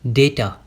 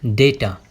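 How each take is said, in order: First: The first vowel is an 'ay' sound. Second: The same.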